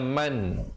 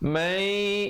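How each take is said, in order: First: The final n is pronounced clearly. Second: The n merges into a nasal two-beat sound. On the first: This is the word's basic form. "asalnya man" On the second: It blends into the next word here. "tapi di sini kena baca mai idgham bi gunnah"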